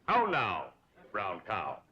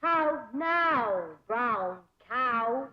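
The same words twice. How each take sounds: First: "How now, brown cow?" crisp and rounded; teacher leads "How now, brown cow?"; elocution model. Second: "How now, brown cow?" with rounded vowels; careful diction try; elocution drill. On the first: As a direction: clear diction demo. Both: Shown as a demonstration. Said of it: "practice diction and intonation".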